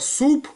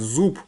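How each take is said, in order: First: The word begins with a voiceless s sound. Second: The word begins with a voiced z sound. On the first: This is the casual street form. The speaker calls it wrong. "в разговорном таком на улице можно крикнуть" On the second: This is the literary standard form. The speaker calls it right. "правильно сказать, зуб"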